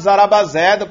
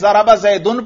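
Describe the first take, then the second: First: The last word stops bare without an ending. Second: The last word ends with the full '-un' ending. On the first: "وقف کر دیں" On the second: "چاہے زارابا زیدن پڑھیں"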